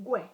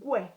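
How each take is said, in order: First: The u and e blend into one sound. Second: The u and e blend into one sound.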